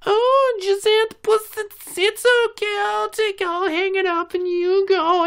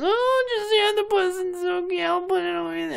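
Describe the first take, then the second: First: High falsetto baby-talk mockery; very high mocking coo to the spoiled kid; mock doting mother. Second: High slow falsetto coo; mock the mother's pampering; very high mocking coo, slower; mock doting mother. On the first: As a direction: coo it like a doting mom, sneering.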